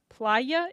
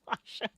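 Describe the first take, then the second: First: The middle consonant is a 'y' sound. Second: The middle consonant is a 'sh' sound. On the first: The speaker calls it right. "Playa is with a Y" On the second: The speaker calls it wrong. "they don't pronounce the word like how it's spelled"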